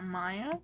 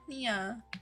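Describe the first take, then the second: First: The first vowel sounds like 'eye'. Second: The first vowel sounds like 'ee'. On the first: The speaker calls it wrong. "when I said Maya, I literally stopped and I was like, wait, no, I said it wrong" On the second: The speaker calls it right. "It was Mia"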